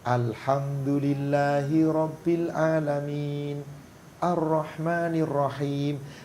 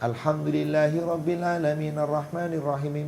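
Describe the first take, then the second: First: There is a pause between the two verses. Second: The two verses run together without a pause. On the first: Each verse is recited on its own. The speaker calls it right. "Harus dengan tartil, ayat per ayat" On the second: The verses are joined together. The speaker calls it wrong. "Yang seperti ini tidak benar"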